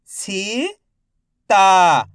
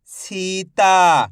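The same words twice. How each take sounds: First: "Sita" split into सी, pause, ता, each drawn out; syllable by syllable. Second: "Sita" joined as one word, long vowels; syllables blended. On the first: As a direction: sound out "Sita" slowly, सी rising, ता falling. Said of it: "एक एक अक्षर का उच्चारण". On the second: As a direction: say "Sita" in one connected stretch. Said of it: "तो मिलके बन जाएगा". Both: Shown as a demonstration.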